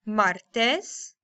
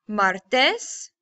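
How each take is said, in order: No difference in how they are said.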